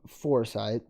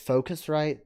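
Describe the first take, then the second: First: The name sounds like 'foresight', with no 'cus'. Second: The name sounds like 'focus' followed by 'rite'. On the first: The speaker calls it wrong. "I always looked at it and saw Foresight" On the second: The speaker calls it right. "it's Focusrite. That's how it's pronounced"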